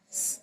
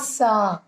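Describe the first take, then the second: First: The s sound is bare, with no vowel. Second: The s sound is followed by a vowel. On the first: The speaker calls it right. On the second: The speaker calls it wrong.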